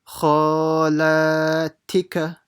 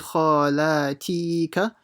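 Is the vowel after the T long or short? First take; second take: short; long. First: The vowel after the T is short. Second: The vowel after the T is stretched long. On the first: The speaker calls it right. "See how quickly I've done the T" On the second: The speaker calls it wrong. "Don't say khalatika, that would be wrong"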